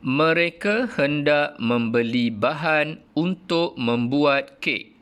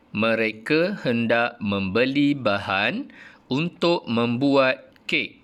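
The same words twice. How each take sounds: First: Slow, raised reading with a falling end; model reading. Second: Slow second take rising on "untuk"; repeated model reading. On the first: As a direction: read it slowly, drop at the full stop. (bacaan contoh perlahan, intonasi menurun di hujung) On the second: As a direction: read again slowly, rise on "untuk". (ulang bacaan perlahan, naik pada "untuk") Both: Shown as a demonstration. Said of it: "cikgu baca ayat yang kedua".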